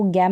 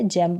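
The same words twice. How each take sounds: First: "गैम" with a hard g, as gam. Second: "जैम" with g sounded as j; soft g. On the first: Teacher warning learners off a misreading, "गैम" with hard g. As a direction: start "गैम" on a hard g sound. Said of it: "इसको गैम नहीं पढ़ेंगे". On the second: Teacher giving learners the correct reading, "जैम" with j sound. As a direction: start "जैम" on a j sound, as jam. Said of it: "जी का उच्चारण ज हो रहा है". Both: Shown as a demonstration.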